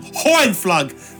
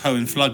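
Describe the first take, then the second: First: The name is said with an exaggerated German accent. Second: The name is said plainly, without a put-on accent. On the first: The speaker calls it wrong. "without me going Hohenflug and pissing a lot of people off" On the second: The speaker calls it right. "It's probably just pronounced Hohenflug"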